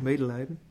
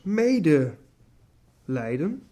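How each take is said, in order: First: It is said as one single word. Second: It is said as two separate words. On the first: It means feeling pity for someone. The speaker calls it wrong. "dan denkt, medelijden. Nee" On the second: It means suffering together with someone. The speaker calls it right. "Zo wij anders mede lijden. Met Christus uiteraard"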